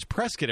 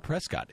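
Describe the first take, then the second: First: Prescott said as "PRESS-kit"; local pronunciation. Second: Prescott with a full second syllable, "PRESS-kot"; wrong pronunciation. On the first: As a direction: reduce the end of Prescott to "kit". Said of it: "it's not Prescott". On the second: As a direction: say Prescott as spelled, ending in "kot". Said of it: "now know how to pronounce". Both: Shown as a demonstration.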